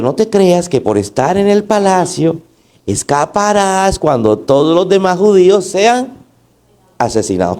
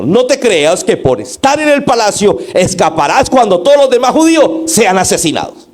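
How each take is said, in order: First: Mild, unforced reading of a rebuke; understated, too-gentle delivery of a warning; mild little tone. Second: High, forceful rebuke in one driving run; urgent, reproachful warning read aloud; loud reproach. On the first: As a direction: read it lightly, without real reproach. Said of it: "con ese tonito de como tan". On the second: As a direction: scold with raised pitch, pressing hard to the end. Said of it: "eso fue en el siguiente tono". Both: Shown as a demonstration.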